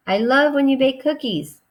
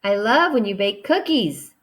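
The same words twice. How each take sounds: First: Excited. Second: Said in the usual way. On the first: Shown as a demonstration. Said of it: "it's excitement, so we need the emotion". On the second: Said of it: "I exclaimed".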